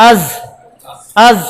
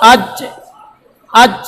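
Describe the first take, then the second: First: "আজ" ending in a soft buzzing z. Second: "আজ" ending in a hard j with a bounce; hard bouncing jim. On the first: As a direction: hold a soft z at the end of "আজ", no bounce. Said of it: "নরম হবে". ("আজ"-এর শেষে নরম য) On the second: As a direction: stop firmly on the j of "আজ" and let it rebound. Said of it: "জিম drop খাবে". ("আজ"-এ শক্ত জিম, শেষে drop) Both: Shown as a demonstration.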